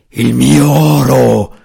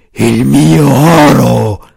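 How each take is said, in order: First: Slow, loud roaring dragon voice. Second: Slow, loud dragon moan, drawn out; a dragon wailing over its gold; gemito del drago. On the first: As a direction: roar it out like a dragon. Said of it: "ruggì ripetutamente il drago". (ruggito lento e forte di drago) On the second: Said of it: "gemeva il drago". (gemito lento e forte di drago) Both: A narrator's reading.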